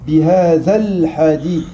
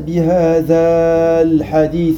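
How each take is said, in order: First: The vowel before the article is kept short. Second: The vowel before the article is held long. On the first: The speaker calls it right. "la prolongation et le alif s'annulent" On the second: The speaker calls it wrong. "on ne va pas dire bihadal hadith, non"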